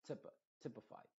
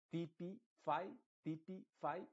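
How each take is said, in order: First: Typify with a muffled I like a dull E, "typ"; reduced I. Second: Typify with a clear Spanish I; wrong clear I. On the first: Teacher models the right typify. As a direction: say typify with a dull, swallowed E-like vowel. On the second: Teacher demonstrates the wrong typify. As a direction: say typify with a full, open I sound. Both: Shown as a demonstration. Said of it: "sino typ".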